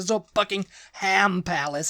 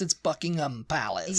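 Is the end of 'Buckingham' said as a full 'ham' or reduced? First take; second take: full; reduced. First: The last syllable is a full 'ham'. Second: The last syllable is reduced, with no 'ham'. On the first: The speaker calls it wrong. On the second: The speaker calls it right.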